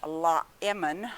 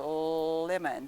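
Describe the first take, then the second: First: An extra 'la' sound comes before the word. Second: The word starts directly with its l sound. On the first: The speaker calls it wrong. "I don't say I want a um, la lemon" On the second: The speaker calls it right. "I say I want a lemon"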